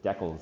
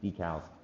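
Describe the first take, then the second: First: The word is pronounced the British way. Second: The word is pronounced the American way. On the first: This is how people in England say it. "in England, you refer to it as decals" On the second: This is how the speaker normally says it. "instead of decals"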